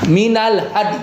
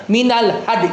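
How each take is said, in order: No difference in how they are said.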